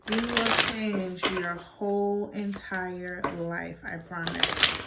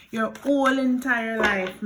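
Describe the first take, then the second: First: "whole entire life" stretched out slowly; measured, drawn-out assurance; slow, deliberate promise. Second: "whole entire life" pushed out louder; loud, emphatic "whole entire life"; emphatic declaration. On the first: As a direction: spell it out slowly, word by word. Deliberate slowed repeat as a promise. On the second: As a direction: hit "whole" hard and loud. Emphatic first take, then repeated slowly. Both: Real, not acted.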